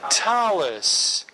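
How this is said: It ends with an s sound, Ashkenazi pronunciation.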